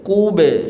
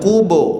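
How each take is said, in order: First: The final vowel is said with spread, smiling lips. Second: The final vowel is said with rounded lips. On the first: The speaker calls it right. "ba-nya pantulkan sambil senyum" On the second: The speaker calls it wrong. "Jangan kubo"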